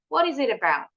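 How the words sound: The middle T sounds like a quick D. "In American English, the T in the middle sounds like a quick D"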